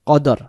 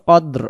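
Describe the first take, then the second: First: It is said with an everyday Bengali pronunciation. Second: It is said with an Arabic recitation pronunciation. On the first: "যেমন আমরা সচরাচর যে বলি" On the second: "এরকম হবে"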